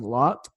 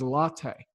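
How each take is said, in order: First: The name is said as one syllable. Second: The name is said as two syllables. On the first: The speaker calls it wrong. "I was saying lot" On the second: The speaker calls it right. "but it is latte"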